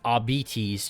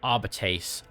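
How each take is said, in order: First: The word ends like the word diabetes. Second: The word does not end like diabetes. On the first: The speaker calls it wrong. "it sounds like you're saying diabetes" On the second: The speaker calls it right. "to me, that just sounds cooler"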